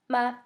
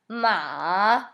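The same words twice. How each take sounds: First: The pitch is light and neutral. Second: The pitch dips low, then rises. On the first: "all of those are fifth tone" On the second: "Third tone is like a valley"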